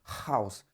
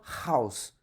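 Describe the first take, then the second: Both takes have the same delivery.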